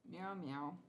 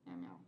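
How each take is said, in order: First: Playful meowing at cat's usual pitch; cat meows. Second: Much lower, growly mock meow. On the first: Pretend. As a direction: mew like the kitten. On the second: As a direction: meow like a big tomcat. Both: Imitating the cat.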